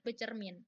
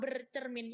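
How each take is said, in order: First: The prefix is said without an r sound. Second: The prefix is said with an r sound. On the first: The speaker calls it right. "Padahal seharusnya adalah" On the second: The speaker calls it wrong. "udah terbiasa ngucapin hal yang salah"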